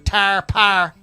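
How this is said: It is said in a Pittsburgh accent.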